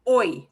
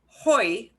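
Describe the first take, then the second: First: The word starts with no h sound. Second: The word starts with an audible h sound. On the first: The speaker calls it right. "You should not hear an H sound" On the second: The speaker calls it wrong. "Not hoy. You should not hear an H sound"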